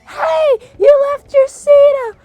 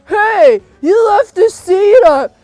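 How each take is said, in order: First: It is in a Cinderella voice. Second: It is not in a Cinderella voice.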